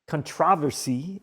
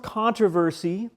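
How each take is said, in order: First: It is pronounced in the British way. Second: It is pronounced in a non-British way.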